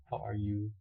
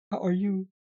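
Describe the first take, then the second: First: Said in the usual way. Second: Pitched up and louder, bright hello; high excited greeting. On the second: Acted. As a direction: greet them with a big lifted voice.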